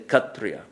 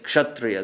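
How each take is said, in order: First: The word begins with a kh sound. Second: The word begins with a clear ksh sound. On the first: This is how Bengali speakers say it. "they say Kshatriya" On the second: This is the standard pronunciation that Bengali speakers avoid. "They don't say Kshatriya"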